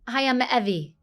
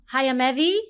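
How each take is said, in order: First: The voice falls at the end. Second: The voice rises at the end.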